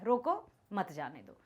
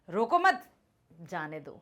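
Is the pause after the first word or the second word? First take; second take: first word; second word. First: There is a pause after the first word. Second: There is a pause after the second word.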